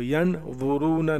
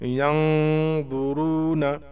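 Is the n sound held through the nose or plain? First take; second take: plain; held. First: The n is short and plain, not nasalized. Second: The n is hidden and held through the nose. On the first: The speaker calls it wrong. "तो यन वुरूना नहीं" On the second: The speaker calls it right. "नाक से पढ़ेंगे"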